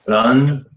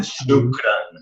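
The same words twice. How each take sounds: First: Ran said alone as the first step; last syllable first. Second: Shukran said whole after Ran, with shu added in front; full word built up. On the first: Learner shows how Pimsleur builds shukran, starting with Ran. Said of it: "they break it into the syllables". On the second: Learner shows how Pimsleur builds shukran, ending with the whole word. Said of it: "then adding to the front". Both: Shown as a demonstration.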